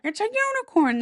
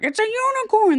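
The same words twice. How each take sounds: First: High, stubborn king; the king insists, pitched high; crazy king again. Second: High, louder insistence from a crazy king; a mad king declaring it proudly, pitched high. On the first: A mad king repeats his claim to the courtiers, high. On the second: A mad king insists to his courtiers, high and loud. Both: Retold or imitated.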